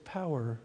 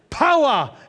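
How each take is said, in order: First: The word is said plainly and calmly. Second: The word is said with fervent, drawn-out emphasis. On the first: It is said in a restrained worship style. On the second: It is said in an expressive worship style. "Pentecostal way"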